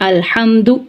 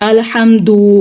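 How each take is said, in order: First: The final u vowel is short. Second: The final u vowel is drawn out long. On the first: The speaker calls it right. "सही वर्ड है अल्हम्दु" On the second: The speaker calls it wrong. "वाव मद्दा का इजाफा करके इसको पढ़ दें"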